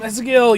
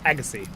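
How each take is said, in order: First: The name is said with a z sound. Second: The name is said with an s sound. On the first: The speaker calls it wrong. "I I said it wrong again" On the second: The speaker calls it right. "There's no Z sound"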